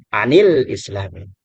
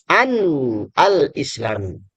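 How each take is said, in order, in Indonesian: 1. Bunyi n langsung tersambung ke kata berikutnya. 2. Bunyi n dipisahkan dari kata berikutnya.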